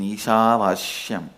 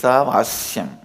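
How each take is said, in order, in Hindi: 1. 'yam' से पहले वाले अक्षर में sh ध्वनि है। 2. 'yam' से पहले वाले अक्षर में s ध्वनि है। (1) "my pronunciation Ishavashyam is also Padabeta. How I heard from my masters" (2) "but actually it is Isavasyam"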